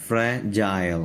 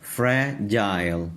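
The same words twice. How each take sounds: First: Said in the usual way. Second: fragile drawn out slowly, each part separate; teacher's slow model of fragile; slow syllable demo. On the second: Shown as a demonstration. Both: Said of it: "تو اب ہم اس کو پڑھیں گے جائل".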